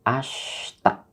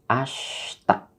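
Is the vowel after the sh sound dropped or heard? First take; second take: dropped; dropped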